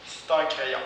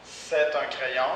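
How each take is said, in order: First: "c'est" reduced to "st" before "un"; spoken st for c'est. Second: Said in the usual way. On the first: Shown as a demonstration. Teacher models reduced "c'est un crayon". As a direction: drop the vowel: "st un crayon". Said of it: "on le prononce parfois st". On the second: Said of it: "on le prononce parfois".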